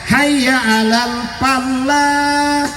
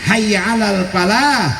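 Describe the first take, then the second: First: The l in falah is held long, doubled. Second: The l in falah is short, single. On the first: Come, let us farm the land. The speaker calls it wrong. "Karena pakai tasdid" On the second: Come to success. The speaker calls it right. "Hilangkan tasdidnya"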